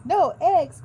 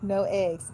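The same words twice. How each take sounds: First: Higher and louder, an alarmed cry; dismayed cry. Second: Said in the usual way. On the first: Acted. Farmer Brown reading the cows' note, crying out in dismay. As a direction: wail it like a farmer losing his eggs. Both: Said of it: "cried Farmer Brown".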